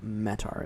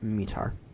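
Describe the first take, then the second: First: The word is given a non-British pronunciation. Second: The word is given the British pronunciation. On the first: The speaker calls it wrong. "It's not METAR" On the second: The speaker calls it right. "It's METAR. That's the Brits anyway"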